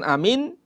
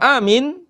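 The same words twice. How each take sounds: First: The first vowel is short. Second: The first vowel is drawn out long. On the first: "dengan pendek alifnya" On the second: "bil mat"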